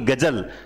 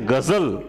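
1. यह व्यंजन सादी j ध्वनि है। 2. यह व्यंजन गूंजने वाली z ध्वनि है। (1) "ना कि गजल" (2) "क्या पढ़ते हैं?"

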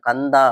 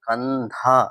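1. கடைசி அசை சாதாரணமா சொல்லணும், ஹ மூச்சு இல்லாம. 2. கடைசி அசையில் மூச்சொலி ஹ ஒலி இருக்கு. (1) "கந்தா அப்படின்னு சொல்லக்கூடாது" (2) "தா சொல்லும்போது கடைசியில் ஹா ப்ரொனவுன்சியேஷன் பண்ணுங்க"

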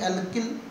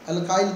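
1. यह शब्द 'el-kil' की तरह बोला जाता है, हिंदी शैली में। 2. यह शब्द 'al-kyle' की तरह बोला जाता है, अंग्रेज़ी शैली में। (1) "हिंदी में एल्किल बोलते हैं" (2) "इंग्लिश में अल्काइल बोल देते हैं"

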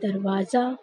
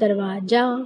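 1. आखिरी अक्षर की शुरुआत z की आवाज़ से होती है। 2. आखिरी अक्षर की शुरुआत j की आवाज़ से होती है। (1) "और ये शब्द हो जाएगा दरवाजा" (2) "लेकिन इसको आप लोग क्या पढ़ते हैं"

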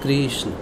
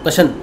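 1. 'ri' की ध्वनि नाम में साफ़ बोली जाती है। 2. 'ri' की ध्वनि नाम में छोड़ दी जाती है। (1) "इन बिटवीन द री, हम थोड़ा उसको लंबा करते हैं" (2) "कशन कोई मतलब नहीं बनता"

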